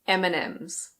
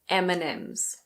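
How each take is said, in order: The two takes are said the same way.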